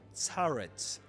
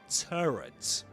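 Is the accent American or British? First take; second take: British; American. First: It is said with a British accent. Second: It is said with an American accent. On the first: "in British English a turret" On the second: "in American English a turret"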